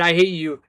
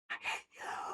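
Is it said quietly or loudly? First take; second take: loudly; quietly. First: It is said loudly, like shouting. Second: It is said very quietly and low.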